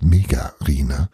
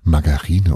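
First: The first syllable is pronounced 'Me'. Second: The first syllable is pronounced 'Mar'.

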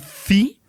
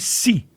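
First: The syllable starts with a soft th sound. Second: The syllable starts with a plain s sound. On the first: This is the pronunciation used in Spain. "would then in Spanish would be thi" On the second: This is the pronunciation used in Latin America. "in Latin American Spanish would be si"

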